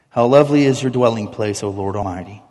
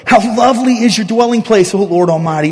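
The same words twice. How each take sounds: First: It is read in a flat, indifferent way. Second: It is read in a passionate, heartfelt way. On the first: The words are read without real longing. The speaker calls it wrong. "I'm going to read it like most of us read this" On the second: The words express real longing for God. The speaker calls it right. "I've prayed that way at times in my life, but it should be my prayer every time"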